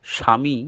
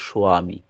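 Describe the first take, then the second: First: স্বামী said as written, with a plain "shami" sound; written spelling said aloud. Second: স্বামী said as "soami", with a rounded o glide after the s; true pronunciation. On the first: Guru shows disciples how the name is written: স্বামী as "shami". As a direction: read স্বামী as it is spelled on the initiation letter, "shami". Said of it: "এই স্বামী কিন্তু উচ্চারণ হয় না". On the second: Guru teaches disciples the true sound: স্বামী as "soami". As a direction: say স্বামী as "so-ami", not "shami". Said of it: "প্রকৃত উচ্চারণ হচ্ছে". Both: Shown as a demonstration.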